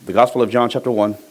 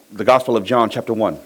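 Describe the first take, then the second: No difference in how they are said.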